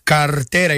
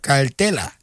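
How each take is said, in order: First: The last syllable starts with an R sound. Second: The last syllable starts with an L sound. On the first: "ellos me dicen cartera" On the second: "pronunciación boricua con la L"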